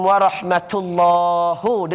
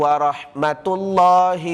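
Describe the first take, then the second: First: The t sound is released with a breathy puff. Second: The t sound is released without a breathy puff. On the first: The speaker calls it wrong. "dengar sedap tapi salah" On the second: The speaker calls it right. "Yang ini tidak berang, berangin"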